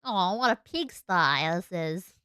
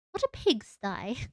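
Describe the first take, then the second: First: Slow, put-on Australian accent; drawn-out mock Australian. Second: Slow, put-on British-esque accent; testing a silly British accent; mock British. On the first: Shown as a demonstration. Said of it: "What would the Australian accent sound like?". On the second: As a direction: draw it out in odd mock British. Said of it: "odd British-esque accent when I said that".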